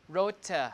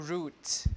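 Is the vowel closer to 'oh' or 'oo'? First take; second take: oh; oo. First: The vowel is a mid, 'oh'-like sound. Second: The vowel is a high, 'oo'-like sound. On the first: This is the older pronunciation. "This is o" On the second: This is the later pronunciation. "one step higher"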